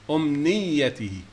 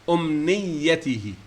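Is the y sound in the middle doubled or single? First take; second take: doubled; doubled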